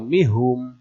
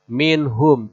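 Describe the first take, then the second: First: The n sound is left out entirely. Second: The n is pronounced clearly and distinctly. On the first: The speaker calls it wrong. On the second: The speaker calls it right. "Jelas dibaca nunnya"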